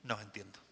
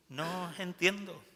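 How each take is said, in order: First: "No os entiendo" said softly and lower, bewildered; quiet perplexity. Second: "No os entiendo" repeated higher and louder, pleading; exasperated repeat. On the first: God looking at His people, soft bewildered murmur. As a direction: murmur "No os entiendo" like a puzzled father. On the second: God repeating His bewilderment to His people, higher exasperated. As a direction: raise "No os entiendo" in exasperated disbelief. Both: Acted. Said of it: "Un Dios que mira a su pueblo y dice".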